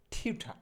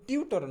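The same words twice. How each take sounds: First: টিউঠা with an aspirated ঠ and open final আ, no r; corrected pronunciation. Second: Said in the usual way. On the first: Shown as a demonstration. Teacher correcting learners' word for tutor, টিউঠা with aspirated "tha". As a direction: end টিউঠা on "tha", dropping the r. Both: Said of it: "মোটেও টিউটর না".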